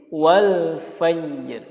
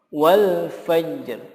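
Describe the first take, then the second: Both takes have the same delivery.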